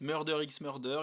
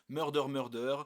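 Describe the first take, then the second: First: The letter x is spoken between the words. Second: The two words follow with no x spoken. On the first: "Il y en a qui prononcent le X" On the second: "Il y en a qui prononcent pas le X"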